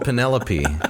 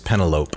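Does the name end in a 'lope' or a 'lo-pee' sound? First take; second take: lo-pee; lope. First: The name ends with a 'lo-pee' sound. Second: The name ends like the word 'lope'. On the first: This is how the name is actually said. The speaker calls it right. "she was called" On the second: This is how a child guessed it from reading. The speaker calls it wrong. "I thought that the individual's name was"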